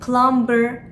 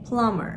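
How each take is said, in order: First: The B sound is pronounced in the word. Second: The B sound is left out of the word. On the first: The speaker calls it wrong. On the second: The speaker calls it right.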